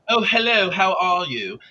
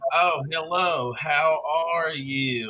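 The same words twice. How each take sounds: First: It is said quickly in a British accent. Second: It is said slowly in a Southern American accent. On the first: "If you slow down a British accent" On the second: "you pull the R's more"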